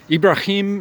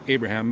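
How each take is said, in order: First: The name is said the Arabic way. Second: The name is said the usual English way. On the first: The speaker calls it right. "it's Ibrahim is much closer. That's kind of how the the Muslims would say it" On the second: The speaker calls it wrong. "most English speaking people say Abraham"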